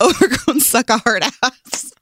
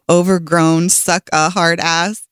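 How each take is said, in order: First: It is said fast. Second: It is said slowly.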